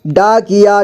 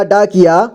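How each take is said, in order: First: डाकिया as डा-कि-या; syllable by syllable. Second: Said in the usual way. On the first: Shown as a demonstration. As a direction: sound out डाकिया in three parts. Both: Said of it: "एक ही बार में पढ़ेंगे".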